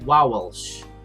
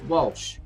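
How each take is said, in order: First: The name is pronounced in an odd, affected way. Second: The name is pronounced in the ordinary way. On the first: The speaker calls it wrong. "it ain't Walsh" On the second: The speaker calls it right. "It's Walsh"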